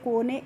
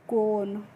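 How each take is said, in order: First: The final e is sounded as a vowel. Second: The word ends with no final vowel. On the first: The speaker calls it wrong. "इस तरीके से नहीं पढ़ना है" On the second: The speaker calls it right. "कैसे पढ़ना है"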